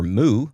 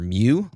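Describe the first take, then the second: First: It sounds like 'moo', with no y glide. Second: It sounds like 'myoo', with a y glide. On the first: "like the cow" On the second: "like the Pokemon"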